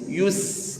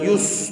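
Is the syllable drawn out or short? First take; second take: drawn out; short. First: The syllable is drawn out and held. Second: The syllable is clipped short and bounced. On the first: The speaker calls it right. "tarik ya" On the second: The speaker calls it wrong. "bukan yus"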